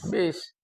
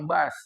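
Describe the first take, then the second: First: The word is said with an 'i' vowel. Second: The word is said with a 'u' vowel. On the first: This is how people here say the word. "kita sebutnya sini bis" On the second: This is the English reading of the word. "bahasa Inggris bacanya bus"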